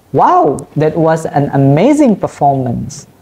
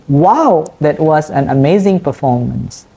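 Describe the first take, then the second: First: Excited example read aloud; excited exclamation. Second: Said in the usual way. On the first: Shown as a demonstration. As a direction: lift the wow, sell amazing with excitement. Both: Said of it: "indicate strong emphasis or excitement".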